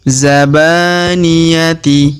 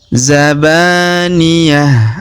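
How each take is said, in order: First: The word ends with a t and i sound. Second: The word ends with a silent-vowel h sound. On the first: The reading continues past this word. "Kalau kita lanjutkan bacaan kita maka kita baca kasroh" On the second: The reader stops at this word. "ta marbutoh di ujung atau huruf Ti kita rubah menjadi ha sukun"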